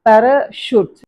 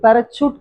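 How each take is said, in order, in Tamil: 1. நடுவில் உள்ள மெய்யெழுத்து 'sh' ஒலி. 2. நடுவில் உள்ள மெய்யெழுத்து 'ch' ஒலி.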